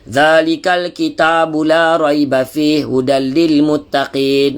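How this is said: The voice comes out mostly through the mouth. "Ada orang hidung dia kurang, mulut lebih"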